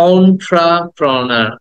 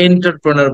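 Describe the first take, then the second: First: অন্ট্রাপ্রেনার slowly, opening with "on-tra"; correct entrepreneur. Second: এন্টারপ্রেনার starting with "en-tar"; common mispronunciation. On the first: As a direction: model অন্ট্রাপ্রেনার with an open aw start. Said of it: "but শব্দটা হচ্ছে". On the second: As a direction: say এন্টারপ্রেনার wrongly, with an e opening. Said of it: "আমরা এটাকে এন্টারপ্রেনার বলি". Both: Shown as a demonstration.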